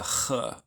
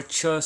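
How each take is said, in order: First: Ch as a throaty rasp in the back of the mouth; guttural ch. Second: Ch as in church, tch; English ch. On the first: Teacher showing students the right sound, guttural ch. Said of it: "it's a ch". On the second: Teacher showing students the wrong sound, English ch. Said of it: "which is not a ch sound". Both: Shown as a demonstration.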